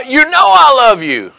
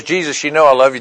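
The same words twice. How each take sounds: First: High, heated imitation of Peter; exasperated, ready to cuss. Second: Said in the usual way. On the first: Preacher acting out Peter answering Jesus, exasperated. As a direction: act out fed-up protesting at being doubted. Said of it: "he was ready to cuss again". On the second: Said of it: "Then he gets all upset".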